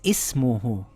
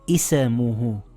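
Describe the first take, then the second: First: The s joins directly onto the m. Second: A short vowel bounce follows the s. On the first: The speaker calls it right. "it says ismuhu" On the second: The speaker calls it wrong. "as if you're bouncing the letter"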